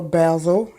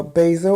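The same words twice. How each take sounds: First: Basil said BAZ-ul, short A; basil with a short "baz" first syllable; English basil. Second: Basil said BAY-zul, long A; basil with a long "bay" first syllable; American basil. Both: Shown as a demonstration. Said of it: "if you're English here".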